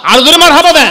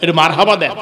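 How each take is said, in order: First: মারহাবা called out high and loud; preacher urging the crowd to shout মারহাবা louder. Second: Said in the usual way. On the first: Shown as a demonstration.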